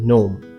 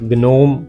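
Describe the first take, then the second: First: The g is silent at the start. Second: A g sound is heard at the start. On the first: The speaker calls it right. "It's नोम" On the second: The speaker calls it wrong. "नो"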